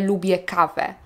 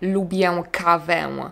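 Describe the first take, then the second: First: The final vowels are plain. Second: The final vowels are nasal. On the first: The speaker calls it right. "mówię" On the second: The speaker calls it wrong. "Nie mówię ... brzmi bardzo nienaturalnie"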